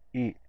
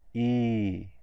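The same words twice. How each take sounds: First: The vowel is short and kept inside the mouth. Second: The vowel is long and the mouth opens wider. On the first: "the short sound, stays inside the mouth" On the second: "The long sound comes outside of the mouth"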